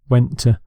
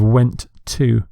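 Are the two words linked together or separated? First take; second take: linked; separated. First: The two words run smoothly together. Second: The two words are said separately. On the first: The speaker calls it right. "a natural way of speaking English is connecting words together" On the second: The speaker calls it wrong. "Instead of"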